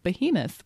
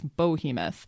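First: The first syllable sounds like 'bee'. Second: The first syllable sounds like 'boh'. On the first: The speaker calls it right. "correcting his pronunciation of behemoth" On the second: The speaker calls it wrong. "which he says bohemoth"

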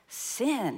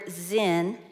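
First: The word begins with an S sound. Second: The word begins with a Z sound. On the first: The speaker calls it wrong. "instead of sin" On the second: The speaker calls it right. "You actually pronounce this word zin"

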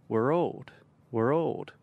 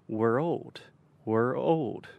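No difference in how they are said.

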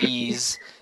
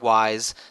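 First: It rhymes with please, ending in a z sound. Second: It rhymes with rise, with a long i vowel. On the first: "not ease" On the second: "not wise"

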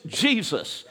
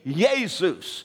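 First: The name is said with English pronunciation. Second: The name is said with a European pronunciation. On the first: "We pronounce it in the English" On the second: "Others will say"

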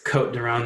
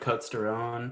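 First: The S in Côtes is silent. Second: The S in Côtes is pronounced. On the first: "the S is silent" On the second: "but I'm American"

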